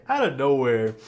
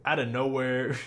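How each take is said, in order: First: Out of nowhere hit louder; louder emphatic repeat. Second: Said in the usual way. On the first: Real, not acted. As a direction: punch out of nowhere, louder this time.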